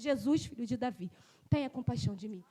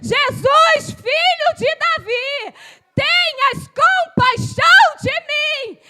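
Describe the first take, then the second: First: It is said at a lower volume. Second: It is said at a louder volume.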